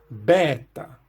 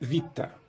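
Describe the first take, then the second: First: It begins with a b sound and open long e. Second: It begins with a v sound and an i vowel. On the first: This is the ancient classical pronunciation. "isso é pronunciado com o E longo e aberto, na pronúncia reconstituída clássica" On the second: This is the modern pronunciation. "porém a pronúncia é vita"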